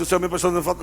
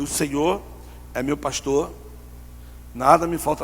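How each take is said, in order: First: Said in the usual way. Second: Halting phrase by phrase, with long pauses; deliberate, obedient psalm reciting; slow recitation. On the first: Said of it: "Não, não, devagar". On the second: Retold or imitated. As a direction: recite it slowly, one piece at a time.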